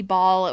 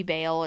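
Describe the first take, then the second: First: Baal said as one syllable, like "ball"; pronunciation variant. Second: Baal said like "bale", with a long A; pronunciation variant. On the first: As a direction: say Baal to rhyme with "hall". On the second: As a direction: say Baal as "BAY-ul". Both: Shown as a demonstration. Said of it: "it's hard to say".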